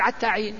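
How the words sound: The first word begins with an 'ayn sound. This is the Hudhayl dialect form. "ولكن ذا صاحب اللغة هذه يقول"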